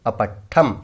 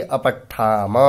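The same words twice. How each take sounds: First: "अपठ्ठम" closed on a bare halant म with no vowel after it; half final m. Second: "अपठ्ठाम" ending on a full, clearly voiced म with a short अ after it; full final a. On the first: Teacher contrasts the halant ending with careful pronunciation. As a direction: cut "अपठ्ठम" off short on the consonant म. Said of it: "म आधा है, हलंत है". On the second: Teacher shows the full ending vowel with careful pronunciation. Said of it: "म के अंत में अ है". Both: Shown as a demonstration.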